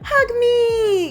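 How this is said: It is said warmly, with a lot of emotion.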